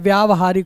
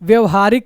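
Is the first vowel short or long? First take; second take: long; short. First: The first syllable has a long vowel. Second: The first syllable has a short vowel. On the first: The speaker calls it right. "जबकि होता क्या है, व्यावहारिक होता है ना" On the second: The speaker calls it wrong. "व्यवहारिक कह देते हैं"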